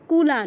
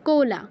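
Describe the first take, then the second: First: The first vowel sounds like u. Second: The first vowel sounds like o. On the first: The speaker calls it wrong. "কুলা নয়" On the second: The speaker calls it right. "কয় ওকার আছে, তো কোলা বলবো"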